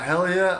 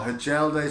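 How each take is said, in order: First: The name is said like 'Hellier', with two syllables. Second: The name is said like 'Hajelde', with three syllables. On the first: The speaker calls it right. "the correct pronunciation is Hellier" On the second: The speaker calls it wrong. "some people might know him as"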